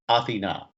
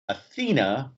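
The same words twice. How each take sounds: First: The name is said the Greek way. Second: The name is said the common English way. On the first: "the Greek pronunciation is" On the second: "most people pronounce it"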